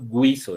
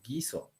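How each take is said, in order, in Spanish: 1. La u se pronuncia como una w después de la g. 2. La u es muda después de la g. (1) "yo no estoy diciendo guiso" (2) "la U está siendo muda"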